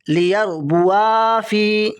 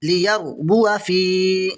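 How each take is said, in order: First: लियरबुआ with a long "waa" before फी; alif wrongly sounded. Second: लियरबुआ with a short "wa" before फी; silent alif. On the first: Teacher shows alif read by mistake, long "waa". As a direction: slowly hold the end of लियरबुआ, then फी. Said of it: "ये नहीं पढ़ा जाएगा". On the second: Teacher shows what is read, brief "wa". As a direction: cut the last vowel of लियरबुआ, then long फी. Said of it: "ये पढ़ा जाएगा". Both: Shown as a demonstration.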